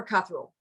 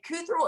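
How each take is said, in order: First: Cuthrell with a short uh, CUTH-rull; first syllable CUTH. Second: Cuthrell with a long oo, COOTH-rull; first syllable COOTH. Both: Shown as a demonstration. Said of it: "So is it Cuthrell or Cuthrell?".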